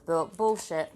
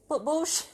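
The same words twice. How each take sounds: First: Silly outburst. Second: Bullshit squealed much higher, rising; silly squeal. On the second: Vlogger in a silly mood yelping a swear, higher. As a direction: yelp "bullshit" up high and silly. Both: Pretend. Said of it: "I'm in a real silly mood".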